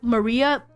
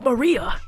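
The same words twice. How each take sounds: First: The name is said in a plain voice. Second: The name is said in a put-on character voice. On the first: "Whenever I read Maria" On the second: "my head reads it with the shadow voice going Maria"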